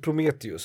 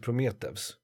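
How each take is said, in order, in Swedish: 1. Ändelsen uttalas med ett u-ljud. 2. Ändelsen uttalas med ett v-ljud. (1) "han heter ju inte Prometheus" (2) "han heter Prometheus"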